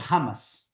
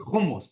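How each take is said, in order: First: Said with a typical American English pronunciation. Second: Said with a non-American, native-style pronunciation. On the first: "but here in America, people say" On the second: "The way to say it is hummus"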